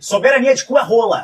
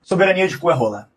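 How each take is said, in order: First: It is said louder. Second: It is said at normal volume.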